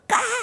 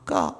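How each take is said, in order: First: The cry is in a high soprano voice. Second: The cry is in a lower voice. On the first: The shut-in calves are crying. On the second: The mother cows are crying.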